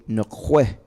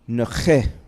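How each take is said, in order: First: The middle consonant is a kw sound. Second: The middle consonant is a plain k sound. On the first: This is how the speaker's community says it. "We say nque" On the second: Some other speakers say it this way. "Some people say k"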